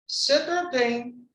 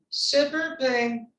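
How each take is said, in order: No difference in how they are said.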